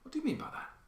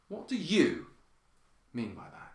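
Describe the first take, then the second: First: Soft voice, rising slightly at the end. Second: One word is strongly emphasized. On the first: A sincere request for clarification. "We might just turn up a little bit at the end. Softer voice" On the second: The question may be taken as a challenge. "put the emphasis on one of these words"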